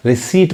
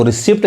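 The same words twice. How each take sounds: First: रिसीट with silent P; long ee straight into T in रिसीट; correct pronunciation. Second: रिसिप्ट with the P sounded; wrong pronunciation. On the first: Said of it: "ये पी नहीं पढ़ाएगा". (रिसीट, पी को खामोश रखकर) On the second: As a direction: voice a P before the final T in रिसिप्ट. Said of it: "गलत हो जाएगा उच्चारण इसका". (रिसिप्ट, पी बोलकर) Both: Shown as a demonstration.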